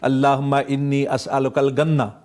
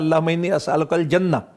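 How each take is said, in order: First: The last word begins with a hard g sound. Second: The last word begins with a j sound. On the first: It sounds like asking for sugarcane. "जीम की जगह पे गाँव बोलते हैं" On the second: It asks for paradise. "वो कह रहा था"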